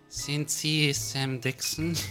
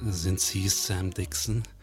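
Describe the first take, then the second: First: It is said in a more feminine voice. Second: It is said in a deep, sexy voice.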